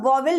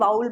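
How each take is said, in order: First: The first vowel sounds like 'aw'. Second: The first vowel sounds like 'ow'. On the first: The speaker calls it wrong. "इसका वॉवेल नहीं पढ़ते" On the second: The speaker calls it right. "वाउल पढ़ते हैं"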